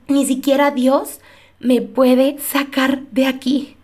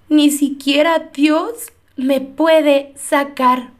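First: Slowed repeat, trailing into hopelessness; slower hopeless echo. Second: Drawn out, every word weighed slowly; scene: she repeats the despairing words she said on her floor, very slowly; slow despairing quote. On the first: Scene: echoing her despair that even God can't save her, slowed right down. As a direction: let the echo sink and drag. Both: Retold or imitated. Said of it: "llegué a decir con estas palabras".

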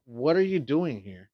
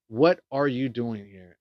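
First: Said in the usual way. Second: "are" leaned on, slow and deliberate; stress on "are". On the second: Retold or imitated. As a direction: ask it slowly, word by word, pressing "are". Repeats it slowly for emphasis.

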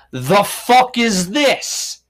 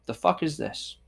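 First: Slow, loud, disgusted drawl; disgusted outrage. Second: Quiet aside. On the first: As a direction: stretch it out, appalled. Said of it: "the right side said". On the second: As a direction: say it softly under your breath. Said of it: "I've said those words before". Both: Retold or imitated.

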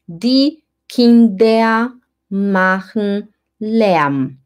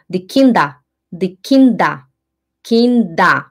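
First: Very slow, every word drawn out; slow careful reading. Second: "Kinder" said like "kinda", final A; fast German speech. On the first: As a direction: read it the way a German reads aloud. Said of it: "Quando o alemão vai ler". (leitura bem lenta, como o alemão lê) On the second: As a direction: clip "Kinder" so the end sounds like an A. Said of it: "Quando o alemão fala rápido". ("Kinder" falado como "kinda") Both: Shown as a demonstration.

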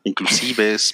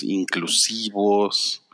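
First: Inclusives, ending -ives with a clear e. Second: Inclusivos whispered slowly, ending -ivos with o. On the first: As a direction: say Inclusives, gender-neutral -es ending. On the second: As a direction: say inclusivos, masculine -os ending, hushed. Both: Real, not acted.

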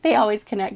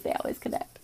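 First: Said in the usual way. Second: Unvoiced whispered echo of the line; whispered repeat. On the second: Shown as a demonstration. Reader echoes the message to viewers in a whisper. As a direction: whisper it back for emphasis.

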